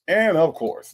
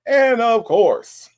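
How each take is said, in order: First: Said in the usual way. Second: And of course stretched slow, higher and louder; slow, higher, louder build-up before a name; drawn-out announce. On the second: Acted. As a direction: roll out And of course like a big introduction. Grand welcome of a regular viewer.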